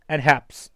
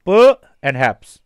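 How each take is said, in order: First: Said in the usual way. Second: प punched loud, syllables slow and spaced; stress on प. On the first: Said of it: "pronunciation देखेंगे". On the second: Shown as a demonstration. Teacher spelling out perhaps slowly, stress on प. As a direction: stretch out प and haps, hitting प hard. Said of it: "इस पे थोड़ा सा stress पड़ता है".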